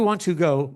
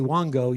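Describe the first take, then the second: First: Each word is said clearly and separately. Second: The words are run together into one word.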